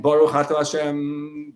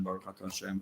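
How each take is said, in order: First: Slow, deliberate Baruch Atah Hashem; slow fervent blessing. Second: Baruch Atah Hashem almost whispered, much softer; hushed blessing. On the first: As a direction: savor each word of Baruch. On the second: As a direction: let Baruch fade to a hush. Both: Shown as a demonstration. Repeating blessing as meditation.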